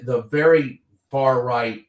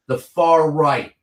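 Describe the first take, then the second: First: "very" punched, whole phrase slowed; stress on very. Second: "far" held long and weighted, slow; stress on far. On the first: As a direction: hit "very" hard, then drag out "far right". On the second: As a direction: lean slowly on "far right". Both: Real, not acted. Repeats the phrase with more stress.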